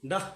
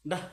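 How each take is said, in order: First: ডাহ said as da with a final h; bisarga as h. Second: ডাহ repeated, da ending in a breathy h; bisarga as h, repeated. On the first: Teacher sounds out ডাহ for the class, final h audible. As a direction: breathe out the h in ডাহ. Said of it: "ডা দিয়ে বিসর্গ দিই". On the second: Teacher repeats ডাহ to confirm the pronunciation. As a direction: say ডাহ once more with the final h. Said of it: "এরকম হবে". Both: Shown as a demonstration.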